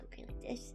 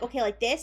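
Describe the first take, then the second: First: It is said very quietly. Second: It is said fairly loudly.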